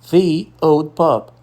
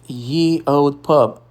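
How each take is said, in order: First: The first word starts with a th sound. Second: The first word starts with a y sound. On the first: The speaker calls it right. "A pronúncia correta, histórica e respeitosa" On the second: The speaker calls it wrong. "pare de dizer ye old pub"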